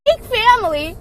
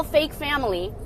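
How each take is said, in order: First: Mocking emphasis. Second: Said in the usual way. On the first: Shown as a demonstration.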